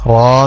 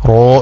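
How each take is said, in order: First: The vowel is an open 'ah' sound. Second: The vowel is a rounded 'oh' sound. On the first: The speaker calls it right. "റായിന് ഫത്ഹ ഇട്ടാൽ റാ തന്നെ" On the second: The speaker calls it wrong. "റോ എന്നല്ല അക്ഷരം"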